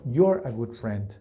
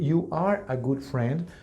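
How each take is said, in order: First: One contracted syllable, you're. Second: Two separate words, you and are. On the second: "En vez de decir"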